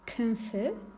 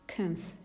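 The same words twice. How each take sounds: First: The final syllable ends with a clear i vowel. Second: The final syllable has no clear vowel. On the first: The speaker calls it wrong. "we don't say" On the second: The speaker calls it right. "we say"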